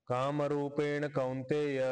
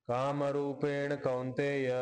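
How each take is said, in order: No difference in how they are said.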